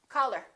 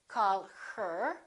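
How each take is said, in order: First: The h sound in 'her' is dropped. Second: The h sound in 'her' is clearly pronounced. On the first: The speaker calls it right. "we drop the H... we say call her" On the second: The speaker calls it wrong. "We don't say call her"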